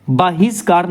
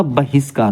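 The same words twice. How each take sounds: First: बहिष्कार with long first aa, "baa-his-kaar"; wrong pronunciation. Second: बहिष्कार with short first a, "ba-his-kaar"; lower, short-vowelled start on बहिष्कार; correct pronunciation. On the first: Teacher showing the faulty word, long-aa "baahiskaar" for बहिष्कार. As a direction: lengthen the opening vowel of बहिष्कार. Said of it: "बहिष्कार नहीं होता". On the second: Teacher correcting the word, short-a "bahiskaar" for बहिष्कार. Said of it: "बहिष्कार होता है". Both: Shown as a demonstration.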